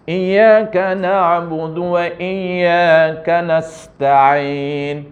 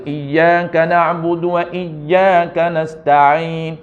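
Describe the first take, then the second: First: Slow Quranic recitation, harsh letters; tajwid recitation, not soft enough. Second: Slow Quranic chant, letters right; correct recitation. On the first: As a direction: chant it slowly but without softening. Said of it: "Cuma tak cantik". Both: Shown as a demonstration.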